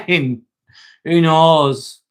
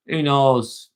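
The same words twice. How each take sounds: First: Laughing. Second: Said in the usual way. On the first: Real, not acted. Laughs at a chat question.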